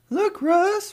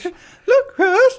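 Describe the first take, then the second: First: It is said in the speaker's normal voice. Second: It is said in a put-on character voice. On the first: "When you started that sentence, I thought you were going to do the popsicles voice" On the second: "the popsicles voice"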